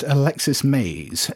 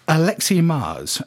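First: The name is said as Alexis Mays. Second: The name is said as Alexi Mars. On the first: The speaker calls it wrong. "I'd assumed that it was pronounced Alexis Mays, which is nothing like how it's pronounced" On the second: The speaker calls it right. "This is a listener by the name of Alexi Mars"

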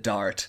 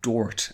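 First: The vowel is an open 'ah' sound. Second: The vowel is a rounded 'aw' sound. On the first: "called the Dart" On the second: "pronouncing it Dort and changing those A sounds to O"

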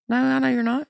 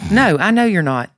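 First: It is said with little confidence. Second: It is said with firm confidence. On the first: The speaker calls it wrong. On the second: The speaker calls it right.

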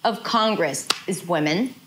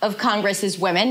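First: There is a short break in the middle. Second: All the words run together without a break. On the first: The speaker calls it right. "There is a mini break" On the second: The speaker calls it wrong. "It's not of Congress is women. Not everything is connected"

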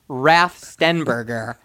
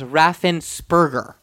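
First: The name is said with 't' and 'b' sounds. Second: The name is said with 's' and 'p' sounds. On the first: The speaker calls it wrong. "he is referred to as Raff Stenberger" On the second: The speaker calls it right. "no T or B. It is Raffensperger"

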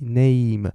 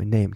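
First: The vowel is drawn out and the word is slow. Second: The vowel is short and the word is quick. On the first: "e 拉长name" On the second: "然后你变快name name 这样子就对了"

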